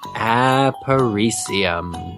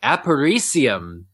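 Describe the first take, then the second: First: It is said slowly. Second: It is said at normal speed.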